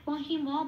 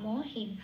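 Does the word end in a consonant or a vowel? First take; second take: vowel; consonant. First: The final m is followed by a vowel. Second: The final m closes the syllable, no vowel. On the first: The speaker calls it wrong. "মহিম বলতে পারবো না" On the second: The speaker calls it right. "হসন্ত আছে বলে ওটা আগের অক্ষর হি এর সাথে জুড়ে উচ্চারিত হবে হিম"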